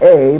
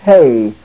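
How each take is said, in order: First: The syllable begins directly with the vowel. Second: The syllable begins with an h sound. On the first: The speaker calls it wrong. "not a" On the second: The speaker calls it right. "Notice the eta has the rough breathing over it. It's hey"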